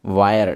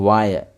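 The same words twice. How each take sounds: First: वायर said as "va-yar", with a y glide; first model take for students; demo of वायर. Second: वायर said again as "va-yar", falling at the end; second model take to confirm; repeated demo of वायर. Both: Shown as a demonstration. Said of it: "ऐसे pronounce किए जाते हैं".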